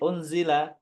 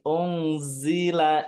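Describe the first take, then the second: First: The z sound is short, without buzzing. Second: The z sound is drawn out with buzzing. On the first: The speaker calls it wrong. "Nggak boleh unzila langsung" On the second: The speaker calls it right. "Unzi harus ada softwarenya"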